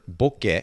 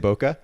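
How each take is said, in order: First: The word is said with its original Japanese sounds. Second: The word is said with an anglicized pronunciation. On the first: This is the word's original form. The speaker calls it right. "it is originally a Japanese word. Boke is the word" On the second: This version avoids confusing listeners. The speaker calls it wrong. "Which is why I say boka"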